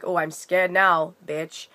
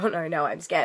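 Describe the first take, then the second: First: Slow, sneering oh I'm scared now, dropping off on bitch; mock hostile sarcasm. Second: Light teasing oh no no, friendly banter; playful mock fear. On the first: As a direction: say it as a nasty sarcastic challenge. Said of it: "I wasn't saying it like". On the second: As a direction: play along jokingly, not hostile. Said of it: "It was more like". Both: Shown as a demonstration.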